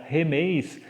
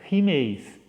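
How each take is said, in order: First: The first vowel is an open 'eh' sound. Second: The first vowel is a close 'ee' sound. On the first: This is the older pronunciation of the word. "a pronúncia desse nós, que era remeis" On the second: This is the later pronunciation of the word. "o nós vai ser, na pronúncia, rimeis"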